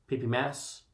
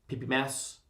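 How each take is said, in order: Both takes have the same delivery.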